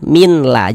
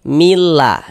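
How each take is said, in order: First: A separate n is heard before the l. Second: The n merges fully into a doubled l. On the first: The speaker calls it wrong. "Jangan dibaca liyauminlah" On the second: The speaker calls it right. "ini kita baca liyaumillah"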